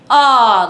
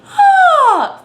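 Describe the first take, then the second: First: It is low and heavy, in talking voice. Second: It is high and light, like a yawn. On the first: The speaker calls it wrong. "Obviously it's not gonna be ah" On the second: The speaker calls it right. "pretend like you're about to yawn. Ah feels very, very different"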